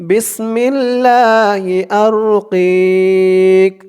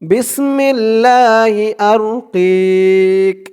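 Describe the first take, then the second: The two takes are said the same way.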